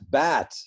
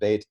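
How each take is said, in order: First: The vowel is like the one in 'bat'. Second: The vowel is like the one in 'bait'. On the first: This is how it was said in the past. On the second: This is the usual modern way.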